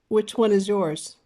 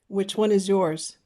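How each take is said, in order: The two takes are said the same way.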